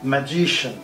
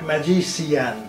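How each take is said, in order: First: The ending is reduced with the vowel dropped. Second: The ending has a full i syllable. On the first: The speaker calls it right. "It is just ম্যাজিশিয়ান" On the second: The speaker calls it wrong. "Not"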